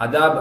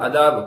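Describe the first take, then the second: Both takes have the same delivery.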